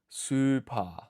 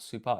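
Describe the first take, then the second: First: The final vowel is long. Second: The final vowel is short. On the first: The speaker calls it right. "we extend the vowel sound once more" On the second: The speaker calls it wrong. "this is not super"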